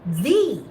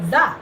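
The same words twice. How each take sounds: First: "the" as a long "thee". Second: "the" with a short, unstressed vowel. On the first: Teacher showing a student "the" before vowels, long vowel. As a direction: stretch "the" into a clear "thee". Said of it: "we pronounce it as a long". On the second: Teacher showing a student the short form of "the", short vowel. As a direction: say "the" short, like "thuh". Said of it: "with a short sound like". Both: Shown as a demonstration.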